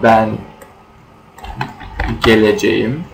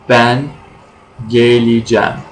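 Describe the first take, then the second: First: Every syllable of the verb is fully pronounced. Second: The verb is shortened, with sounds dropped. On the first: This is the standard written form. "in written language" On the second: This is how people say it in everyday speech. "But in spoken language, we say"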